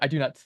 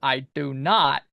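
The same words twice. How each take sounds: First: The stress falls on the word do. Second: The stress falls on the word not. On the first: The speaker calls it right. "not is kind of like is it's not emphasized ... it's always like" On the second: The speaker calls it wrong. "putting emphasis on the not ... you're not supposed to be like"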